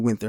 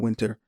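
First: The middle consonant is a 'th' sound. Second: The middle consonant is a plain 't' sound. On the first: The speaker calls it right. "It's actually Winther" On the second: The speaker calls it wrong. "not Winter"

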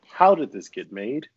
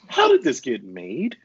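First: The phrase is said with little pitch movement. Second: The phrase is said with strong, expressive inflection. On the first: The speaker calls it wrong. "Was there enough inflection there?" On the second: The speaker calls it right. "I feel like"

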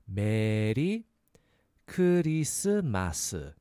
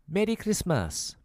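First: It is said at a normal, careful pace. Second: It is said a little faster.

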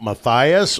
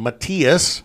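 First: The name is pronounced the English way. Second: The name is pronounced the German way.

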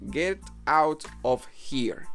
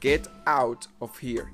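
First: The words out of are run together, reduced. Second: The words out of are said fully and separately.

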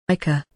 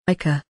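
Both takes have the same delivery.

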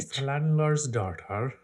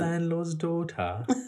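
First: It is said in a Scottish accent sounding Irish. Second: It is said in a British accent. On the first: "It's a little Irish there" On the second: "I just did British"

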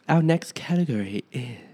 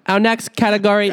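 First: It is said at a quiet, low volume. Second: It is said very loudly, almost shouted. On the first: "You can speak a bit louder" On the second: "no one said to shout it"

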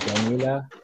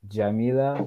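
First: The word begins with a hard G sound. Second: The word begins with a soft J sound. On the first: This is how Egyptians say it. "in Egypt, most of the time they will pronounce it with as g" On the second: This is how most Arabic speakers say it. "jim is supposed to be pronounced j"

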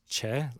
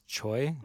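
First: The name is said with an 'eh' vowel. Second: The name is said with an 'oy' vowel. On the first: The speaker calls it right. "but it's Che" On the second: The speaker calls it wrong. "the way we read it is Choi"

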